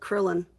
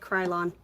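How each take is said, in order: First: The first syllable does not sound like 'cry'. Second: The first syllable sounds like 'cry'. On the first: "or is it Krillon?" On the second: "like cry like tears"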